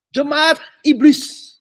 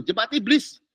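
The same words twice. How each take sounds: First: "jemaat iblis" drawn out very slowly, higher and louder; solemn scripture quote. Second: Said in the usual way. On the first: Retold or imitated. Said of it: "Tuhan bilang". ("jemaat iblis" diucapkan sangat lambat, lebih tinggi dan keras) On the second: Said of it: "Bible ngomongnya gitu".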